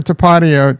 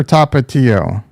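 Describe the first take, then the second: First: Tapatio as tuh-PAH-dee-oh; first pronunciation option. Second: Tapatio as TAH-pah-TEE-oh; second pronunciation option. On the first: Streamer asking chat to vote, Tapatio as tuh-PAH-dee-oh. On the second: Streamer asking chat to vote, Tapatio as TAH-pah-TEE-oh. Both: Shown as a demonstration. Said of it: "how do you say it".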